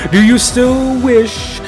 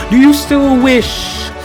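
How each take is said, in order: Both takes have the same delivery.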